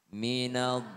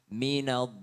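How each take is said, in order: No difference in how they are said.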